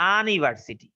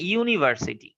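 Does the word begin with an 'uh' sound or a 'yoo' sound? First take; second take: uh sound; yoo sound. First: The word begins with an 'uh' sound. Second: The word begins with a 'yoo' sound. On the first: The speaker calls it wrong. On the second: The speaker calls it right.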